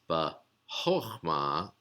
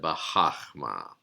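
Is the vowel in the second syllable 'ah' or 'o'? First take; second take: o; ah. First: The second syllable has an 'o' vowel. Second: The second syllable has an 'ah' vowel. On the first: The speaker calls it right. "it's bahochma" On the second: The speaker calls it wrong. "instead of bahachma"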